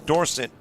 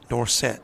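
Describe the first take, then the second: First: The stress is on the first syllable. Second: The stress is on the second syllable. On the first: He was probably not named after the football player. "referred to as Dorset and not Dorsett" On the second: The name matches the famous football player's. "Dorsett put emphasis on the set"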